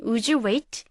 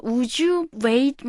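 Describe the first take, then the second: First: Said in the usual way. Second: Very slow, each word laid out; slow model sentence. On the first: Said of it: "이 표현을 보시면". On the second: Shown as a demonstration. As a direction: spell it out slowly for learners. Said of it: "굳이 공손하게 사용하지 않고요".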